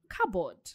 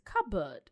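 First: The P is sounded and the ending sounds like board. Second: The P is silent and the ending sounds like bird. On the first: The speaker calls it wrong. "instead of cupboard" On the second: The speaker calls it right. "The P is silent. ... the board is pronounced as a bird"

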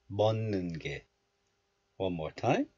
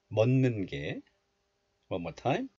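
No difference in how they are said.

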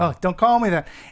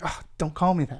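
First: It is said more loudly. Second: It is said fairly quietly.

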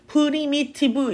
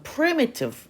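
First: Every syllable has a full, clear vowel. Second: The vowel after the first syllable is reduced. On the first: The speaker calls it wrong. "primitive 이렇게 가는 게 아니라" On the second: The speaker calls it right. "pre가 강해졌으면 자연스럽게 그 뒤에 나오는 모음은 좀 줄어들어"

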